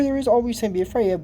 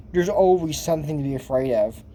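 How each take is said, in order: First: Emphatic agreement. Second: Said in the usual way. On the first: Real, not acted. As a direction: rush it out, agreeing strongly. Agreeing with the film's line.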